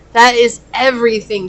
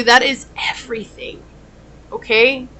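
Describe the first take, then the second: First: Said in the usual way. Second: Hushed whisper to the viewer. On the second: Real, not acted. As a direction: breathe it as a secret. Soft aside to viewer.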